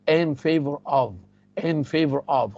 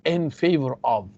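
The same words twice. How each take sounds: First: Slow drill. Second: Said in the usual way. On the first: Shown as a demonstration. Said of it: "teacher drills the phrase slowly". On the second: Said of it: "teacher drills the phrase".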